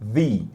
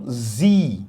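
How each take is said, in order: First: It begins with the tongue between the teeth. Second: It begins with a buzzing z sound. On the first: "sempre com a língua entre os dentes" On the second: "Algumas pessoas falam Z"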